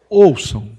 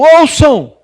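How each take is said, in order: First: It is said in a warm, friendly tone. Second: It is said as a loud, stern proclamation. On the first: The speaker is kindly inviting people to listen. The speaker calls it right. "a entonação aqui seria uma coisa muito mais ah, amistosa" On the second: The speaker is commanding people like a master. The speaker calls it wrong. "em vez de uma proclamação"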